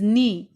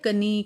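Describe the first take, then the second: First: The word begins without a k sound. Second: The word begins with a sounded k. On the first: The speaker calls it right. "सब में के है लेकिन के letter की sound नहीं आई है।" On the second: The speaker calls it wrong. "ऐसे हम नहीं बोलेंगे।"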